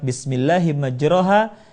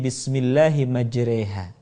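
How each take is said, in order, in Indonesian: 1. Vokal panjang itu bunyi 'a' terbuka. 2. Vokal panjang itu condong ke bunyi 'e'. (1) "Pada kalimat" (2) "dibaca miring menjadi"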